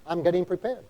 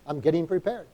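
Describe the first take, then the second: No difference in how they are said.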